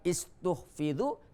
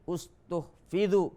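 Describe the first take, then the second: First: The word begins with an 'i' vowel. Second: The word begins with a 'u' vowel. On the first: The speaker calls it wrong. "Bukan istuhfidhu" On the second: The speaker calls it right. "hamzanya harus berbaris dhammah"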